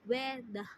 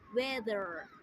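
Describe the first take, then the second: First: The final R sound is dropped. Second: The final R sound is clearly pronounced. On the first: "in British accent, they don't pronounce R in the end of word" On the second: "in American accent, they pronounce R in the end of word clearly"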